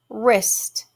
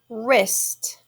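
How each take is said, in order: The two takes are said the same way.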